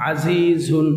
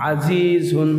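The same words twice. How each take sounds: No difference in how they are said.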